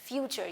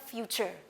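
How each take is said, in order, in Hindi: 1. f के बाद का स्वर 'you' जैसा सुनाई देता है। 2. f के बाद का स्वर 'you' जैसा सुनाई देता है।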